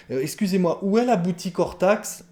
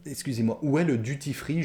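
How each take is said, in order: First: Exaggerated prim politeness, pitched higher; mock overly formal request. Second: Said in the usual way. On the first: Shown as a demonstration. Teacher mocking a learner who avoids the anglicism, in a prim high voice. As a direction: ham up the stiff correct phrasing. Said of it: "C'est presque ridicule de parler comme ça". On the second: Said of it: "Prononcez-le bien à la française".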